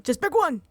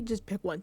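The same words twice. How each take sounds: First: Louder and higher, fed up; exasperated yell at the screen; exasperated shout. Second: Said in the usual way. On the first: Real, not acted. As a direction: yell it like you've had enough.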